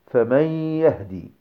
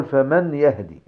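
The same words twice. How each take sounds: First: "فمن يهدي" as "fa-mayyy-yahdi", long nasal glide; correct merge with ghunnah. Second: "فمن يهدي" with a clear N, "fa-man yahdi"; wrong unmerged noon. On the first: Teacher giving students the correct form, noon merged with ghunnah. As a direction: melt the noon of "فمن" into a held nasal yaa. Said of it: "ولكن قل". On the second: Teacher showing students what not to say, noon left unmerged. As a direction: sound the noon of "فمن" separately before "يهدي". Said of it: "لا تقل". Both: Shown as a demonstration.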